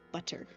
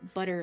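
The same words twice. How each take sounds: First: The middle consonant is a crisp T. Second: The middle consonant sounds like a soft D. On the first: "they pronounce butter as butter" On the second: "We pronounce them as D's"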